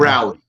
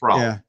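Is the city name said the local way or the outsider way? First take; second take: outsider; local. First: The name is said the outsider way. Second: The name is said the local way. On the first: The speaker calls it wrong. "You will get corrected if you call it" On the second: The speaker calls it right. "It's Raleigh"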